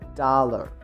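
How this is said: It is said in an American accent. "In American English, we say dollar"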